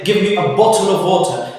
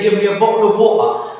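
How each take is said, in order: First: The t sounds in bottle and water are pronounced. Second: The t sounds are replaced by glottal stops. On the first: "they don't say" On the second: "they say ... they don't pro- produce the T"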